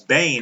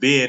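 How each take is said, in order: First: The vowel is long, rhyming with rain. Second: The vowel is short, rhyming with ten. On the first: The speaker calls it right. "It's Bain" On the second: The speaker calls it wrong. "I pronounced it Ben in my video. I was wrong"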